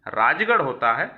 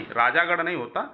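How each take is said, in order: First: राजगढ़ said short in the middle as raajgarh; correct form shown. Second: राजागढ़ said with a long aa in the middle, raajaagarh; wrong form shown. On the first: Teacher gives students the correct form, राजगढ़ as raajgarh. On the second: Teacher warns students off the wrong form राजागढ़. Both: Shown as a demonstration. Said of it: "राजा का गढ़ नहीं".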